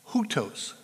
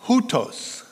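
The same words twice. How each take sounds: First: "hutos" repeated as hoo-tohs, quieter; "hutos" again, hoo-tohs, settling down; Greek word repeated softly. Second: "hutos" said as HOO-tohs, stress on HOO; "hutos" pronounced hoo-tohs; Greek pronunciation. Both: Shown as a demonstration. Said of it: "it's pronounced".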